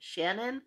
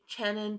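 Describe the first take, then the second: First: The name sounds like Shannon. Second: The name does not sound like Shannon. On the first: The speaker calls it wrong. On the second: The speaker calls it right.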